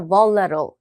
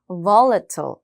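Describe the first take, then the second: First: The T sound is dropped. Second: The T sound is clearly pronounced.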